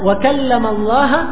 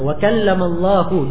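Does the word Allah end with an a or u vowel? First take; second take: a; u. First: The word Allah ends with an a vowel. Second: The word Allah ends with a u vowel. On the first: Moses spoke to God. The speaker calls it wrong. "bukan Allahu" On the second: God spoke to Moses. The speaker calls it right. "di dhamma"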